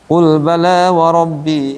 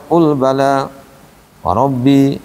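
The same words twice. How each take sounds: First: It is read straight through without a pause. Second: It is read with a stop after bala. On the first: The speaker calls it right. "Nah, begitu" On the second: The speaker calls it wrong. "Jadi enggak enak kalau qul bala wa rabbi, malah enggak nyaman"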